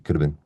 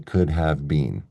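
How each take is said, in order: First: The word 'have' is reduced and linked. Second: Each word is pronounced fully and separately. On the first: The speaker calls it right. "It's always going to be could have been" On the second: The speaker calls it wrong. "I'll probably almost never say could have been"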